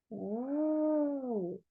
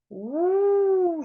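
First: The sound is blown softly and gently. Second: The sound is blown loudly and strongly. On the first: A small wind is blowing. "Подув маленький вітер" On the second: A strong wind is blowing. "А зараз буде сильний вітер. ... ще голосніше"

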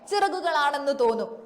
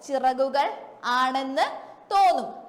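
First: The words are run together quickly as one. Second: The words are said separately with a break. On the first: The speaker calls it right. "നമ്മൾ വേഗത്തിലാ പറയുന്നേ" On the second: The speaker calls it wrong. "അങ്ങനെയല്ല നമ്മൾ പറയുന്നത്"

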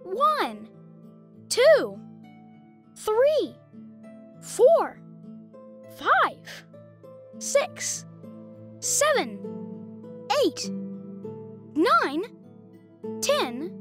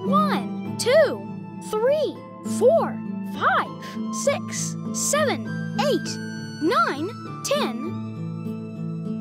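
First: The counting is at a slow pace. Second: The counting is at a very fast pace.

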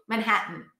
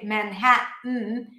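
First: The word is said quickly and smoothly. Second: The word is said slowly and carefully. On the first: The speaker calls it right. "It has to be within the flow" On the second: The speaker calls it wrong. "if you say Manhattan, then it doesn't work as well"

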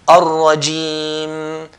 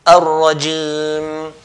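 The two takes are said the same way.

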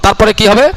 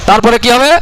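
The two takes are said the same way.

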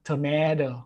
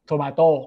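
First: It is said with an American accent. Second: It is said with a Thai accent. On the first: "ส่วนคนอเมริกาก็จะออกเสียงว่า" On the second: "มะเขือเทศผมจะออกเสียงว่า"

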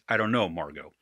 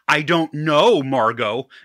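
First: It is said in a plain voice. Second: It mimics the Christmas Vacation line's inflection.

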